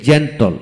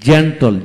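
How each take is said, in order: First: Said in the usual way. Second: Slow demo. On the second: Shown as a demonstration. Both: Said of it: "gentle, জিইএনটিএল".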